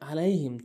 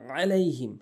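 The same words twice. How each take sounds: First: It starts with a light glottal stop. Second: It starts with a deep throaty ain sound. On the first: The speaker calls it wrong. "হামজা এনে উচ্চারণ করে" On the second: The speaker calls it right. "আলাইহিম বলতে হবে"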